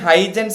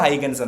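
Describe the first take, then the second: First: The middle consonant is a 'j' sound. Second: The middle consonant is a 'g' sound. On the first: The speaker calls it wrong. "ഹൈജൻസ് എന്നാണ് ഞാൻ ഇവിടെ എഴുതിയിരിക്കുന്നതെങ്കിലും" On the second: The speaker calls it right. "വായിക്കുന്നത് ഹൈഗൻസ് എന്നാണ്"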